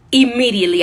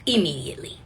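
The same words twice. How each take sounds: First: Louder, punched out; emphatic. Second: Soft breathy aside; whispered echo. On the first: Telling the audience how fast she took the job, louder. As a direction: land it hard and sure. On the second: Repeating to the audience, dropped to a whisper. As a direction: drop it to a whisper. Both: Real, not acted.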